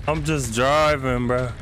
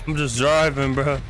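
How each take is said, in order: Both takes have the same delivery.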